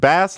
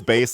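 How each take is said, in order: First: The vowel is short, rhyming with mass. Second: The vowel is long, rhyming with face. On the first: It names a kind of fish. "like the fish" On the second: It names a low-pitched musical instrument. "like the instrument"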